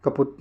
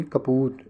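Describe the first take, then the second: First: कपुत with a short u; wrong short u. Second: कपूत with a long ऊ; correct long u. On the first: Teacher shows students the misspelling, short u in कपुत. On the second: Teacher corrects the spelling for students, long u in कपूत. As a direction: stretch the ऊ in कपूत. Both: Shown as a demonstration. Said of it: "कपुत नहीं, कपूत".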